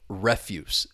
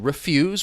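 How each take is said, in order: First: The stress is on the first syllable. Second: The stress is on the second syllable. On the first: It is the noun, meaning garbage. "The stress is on that first syllable" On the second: It is the verb, meaning to say no. "The stress is on the second syllable"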